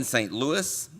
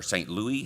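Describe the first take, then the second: First: Louis ending in a clear S; Saint Louis with S sounded. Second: Louis with a silent final S; Saint Louis, French-style ending. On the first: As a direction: say Louis as LOO-iss. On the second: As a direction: say Louis as LOO-ee. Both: Shown as a demonstration. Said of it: "however you want to say it".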